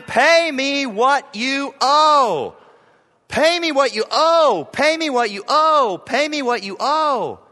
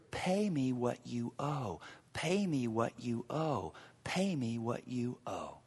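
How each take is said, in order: First: Loud, high, furious repeated demand; furious creditor shouting at his fellow servant; angry demand. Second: Cold, soft whisper of the demand; hushed whisper of the unforgiving servant. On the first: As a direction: shout it like seizing his throat. Servant demanding debt, acted. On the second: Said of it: "picture it". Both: Acted.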